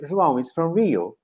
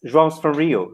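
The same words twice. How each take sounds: First: "João is from Rio" with IS as its own word; full-form intonation model. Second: "João's from Rio" with IS reduced to a final s; contracted form. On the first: Teacher drilling intonation with the class, full form. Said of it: "And then you work on the intonation". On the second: Teacher modelling the contraction for the class, joined up. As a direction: run "João's" together as one word, falling on Rio. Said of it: "Show me the contraction". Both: Shown as a demonstration.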